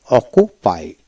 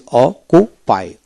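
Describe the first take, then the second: First: Said in the usual way. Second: অকুপাই slowly split, one k sound; syllable-by-syllable pronunciation. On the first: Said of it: "আসুন কিভাবে পড়বেন". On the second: Shown as a demonstration. Teacher showing how to read occupy, অকুপাই slowly sounded out. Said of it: "double সি থাকলে একটা সি উচ্চারিত হবে".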